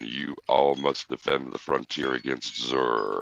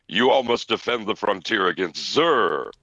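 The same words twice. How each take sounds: First: It is read flatly, without much feeling. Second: It is read dramatically, with strong feeling.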